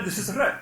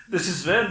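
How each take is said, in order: First: "re" as the second of two distinct consonants; second "re" sound. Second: "re" as the first of two distinct consonants; first "re" sound. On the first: Malayalam speakers contrasting two sounds, second "re" shown distinctly. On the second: Malayalam speakers contrasting two sounds, first "re" shown distinctly. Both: Shown as a demonstration. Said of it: "They're very distinct".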